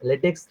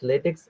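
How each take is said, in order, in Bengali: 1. শব্দটি ks ধ্বনি দিয়ে শেষ হয়। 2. শব্দটি ks ধ্বনি দিয়ে শেষ হয়।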